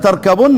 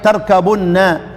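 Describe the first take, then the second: First: The b is not followed by a u vowel. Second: The b is followed by a u vowel. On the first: This is the reading of Hafs. "لا لا" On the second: This is the reading of Abu Amr, Nafi, Ibn Amir and Asim. "نضم"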